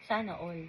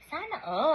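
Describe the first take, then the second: First: It is said in a sad tone. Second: It is said in a happy tone.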